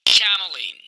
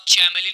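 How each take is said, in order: First: Chameleon with a hard "k" at the start; correct pronunciation. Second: Chameleon with a "ch" sound at the start; wrong pronunciation. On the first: Teacher models the word for students, chameleon with hard "k". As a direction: say chameleon as "ka-ma-leen", falling at the end. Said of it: "बल्कि आप ऐसे बोलेंगे". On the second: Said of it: "इस word को आप chameleon नहीं कहेंगे". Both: Shown as a demonstration.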